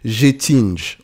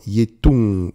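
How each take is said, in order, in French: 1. Le nom est prononcé à la française. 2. Le nom est prononcé d'une façon étrangère, à la suédoise. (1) "je vais le dire en français" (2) "J'espère que c'est comme ça qu'on prononce"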